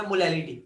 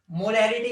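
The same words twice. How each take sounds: First: मोलैरिटी with L in place of R; lisping version. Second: Said in the usual way. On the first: Shown as a demonstration. Teacher introducing molarity's lisping brother, lisped R as L. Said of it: "तोतले वाला version है". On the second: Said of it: "मोलैरिटी तोतले वाला version है".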